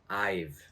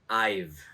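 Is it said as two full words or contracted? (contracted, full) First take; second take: contracted; contracted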